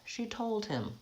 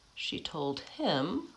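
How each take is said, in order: First: The word told carries the stress. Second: The word him carries the stress. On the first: "the stressed word is still told" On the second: "So him gets the stress because it's more important"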